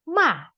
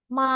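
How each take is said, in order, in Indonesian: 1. Nadanya turun tajam dari tinggi. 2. Nadanya tinggi, datar, dan panjang. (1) "seperti orang marah" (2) "datar dan panjang"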